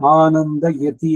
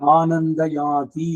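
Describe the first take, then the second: First: The first vowel of the second word is short. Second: The first vowel of the second word is long. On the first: The speaker calls it right. "ಅಂತಿರಬೇಕು" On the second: The speaker calls it wrong. "ಸಂಸ್ಕೃತ ತಪ್ಪದು"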